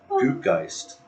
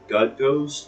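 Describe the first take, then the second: First: The name is said like 'goot-geist' with oo. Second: The name is said like English 'gut ghost'. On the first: The speaker calls it right. "that sounds a little, a little Parisy there" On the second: The speaker calls it wrong. "We've been mispronouncing it this whole time"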